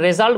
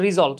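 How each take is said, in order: First: The first syllable sounds like 'reh'. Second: The first syllable sounds like 'rih'. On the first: The speaker calls it wrong. "আমরা রেজাল্ট বলি" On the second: The speaker calls it right. "উচ্চারণ হচ্ছে রিজল্ট"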